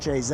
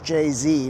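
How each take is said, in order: First: The letter is pronounced 'zed'. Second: The letter is pronounced 'zee'. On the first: The speaker calls it wrong. "not J-Z" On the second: The speaker calls it right. "your favorite rapper is [name]"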